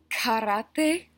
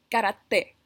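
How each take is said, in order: First: The k has a puff of air after it. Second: The k has no puff of air after it. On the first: The speaker calls it wrong. "lo incorrecto sería decir" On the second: The speaker calls it right. "correctamente diríamos"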